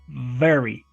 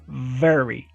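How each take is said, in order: First: It starts with a buzzing V using lip and teeth. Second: The same.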